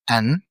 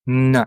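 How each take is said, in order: First: It is said as the full letter name. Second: It is said as a bare consonant sound. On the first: "The name of the letter" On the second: "but we pronounce it like this"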